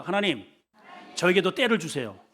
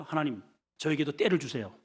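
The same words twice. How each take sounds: First: 다부지게 힘주어 기도하듯; firm and resolute. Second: Said in the usual way. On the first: Shown as a demonstration. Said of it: "다부지게 해봐요". (다부지고 단단하게) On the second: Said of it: "아니, 다부지게 해봐요".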